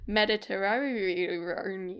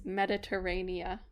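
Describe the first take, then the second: First: The word ends with an n sound. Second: The word ends with a vowel sound. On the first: The speaker calls it wrong. "when I think about it in my mind, it goes Mediterranean" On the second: The speaker calls it right. "But it's Mediterranea"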